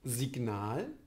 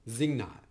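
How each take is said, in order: First: A plosive g is heard before the n. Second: A nasal ng sound replaces the g. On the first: "eigentlich einen standardsprachlich realisierten Plosiv" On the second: "Nasalität durch einen folgenden Nasal"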